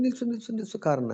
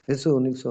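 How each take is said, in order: First: Sharp high-pitched call to halt the car; calling out to stop. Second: Said in the usual way. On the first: Retold or imitated. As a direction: cry out ನಿಲ್ಸು ನಿಲ್ಸು much higher, urgently flagging a car down.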